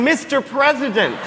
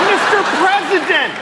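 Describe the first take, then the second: First: Higher, steadier call; a repeated call to catch his eye; yelling again. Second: Much higher, louder, laughing yell. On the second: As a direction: call out to the president across the cars. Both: Retold or imitated. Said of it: "I was literally yelling".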